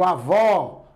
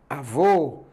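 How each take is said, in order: First: Avó with a wide open final O; open final vowel. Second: Avô with a rounded, closed final O; closed final vowel. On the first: Teacher showing what the acute accent does, open final vowel. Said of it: "pra abrir o som da vogal". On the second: Teacher showing what the circumflex does, closed final vowel. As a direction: close the stressed ô of avô, pitched lower. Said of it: "que é pra fechar". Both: Shown as a demonstration.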